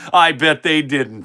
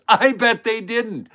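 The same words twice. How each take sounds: First: Said in the usual way. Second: Higher, slow mocking jab; sarcastic emphasis. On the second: Shown as a demonstration. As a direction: lean into the sarcasm, pitched up.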